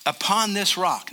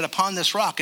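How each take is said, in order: First: Said in the usual way. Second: Rock leaned on with a different inflection; stress on rock. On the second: Shown as a demonstration. Pastor reading Jesus's words, leaning on rock. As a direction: give the word rock its own weight. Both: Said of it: "he used a different inflection on the word".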